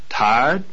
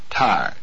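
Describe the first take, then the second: First: The pitch rises on the word. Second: The pitch falls on the word. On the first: It asks whether someone is fatigued. "The pitch of the voice rises on this word" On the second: It states that someone is fatigued. "The pitch falls on this word"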